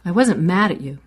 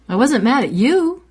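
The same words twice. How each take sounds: First: The word mad is stressed. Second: The word you is stressed. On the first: A different feeling may have been present. "I might have been surprised, but I wasn't mad" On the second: The anger was aimed at someone else. "You're off the hook. I was mad at my mother"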